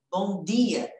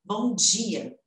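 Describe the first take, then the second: First: "bom dia" with a plain d, "dee-a"; hard dental D. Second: "Bom dia" said as "bom djia"; palatalized D. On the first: Teacher contrasting two Brazilian pronunciations, hard D. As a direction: keep the d of "dia" pure, no "dj". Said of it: "Tem gente que fala". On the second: Teacher contrasting two Brazilian pronunciations, palatalized D. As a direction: soften the d of "dia" into "dj". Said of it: "eu falo bom dia". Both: Shown as a demonstration.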